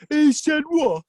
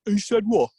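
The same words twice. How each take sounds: First: Higher, indignant repeat in disbelief; outraged snake. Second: Snake's first, restrained disbelief; taken aback. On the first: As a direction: explode with offended disbelief. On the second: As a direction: react in mild indignation. Snake hears the eagle's insult. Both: Acted.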